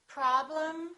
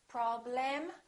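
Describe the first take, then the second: First: The second syllable has a reduced vowel. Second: The second syllable has a full vowel. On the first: The speaker calls it right. "we reduce and we stress" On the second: The speaker calls it wrong. "Don't say"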